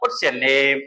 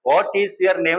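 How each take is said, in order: First: "Is" is contracted onto "what". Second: "Is" is said as a separate word. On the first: The speaker calls it right. "എന്ന് വെച്ചാൽ പറയുന്നത് അതിൻ്റെതായ ഒഴുക്കോട് സംസാരിക്കാം" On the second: The speaker calls it wrong. "വാട്ട് ഈസ് your name എന്ന് പറയുന്നതിന് പകരം"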